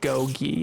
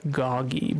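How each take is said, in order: First: The first vowel is long, like 'go'. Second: The first vowel is short, like 'gog'. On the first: The speaker calls it wrong. "it is not gogi" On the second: The speaker calls it right. "it is goggy"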